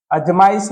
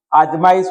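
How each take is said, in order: First: अजमाइश with short first a; wrong form. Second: आजमाइश with long first aa; correct form. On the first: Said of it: "अजमाइश नहीं होगा". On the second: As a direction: stretch the opening of आजमाइश. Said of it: "आजमाइश होगा". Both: Shown as a demonstration.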